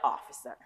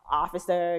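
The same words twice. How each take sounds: First: It is said in an exasperated, disbelieving tone. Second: It is said in a plain, respectful tone. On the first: What the witness just said was foolish. "understand like that was foolishness" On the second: The speaker is showing polite respect. "most times when you use a title, you're being respectful"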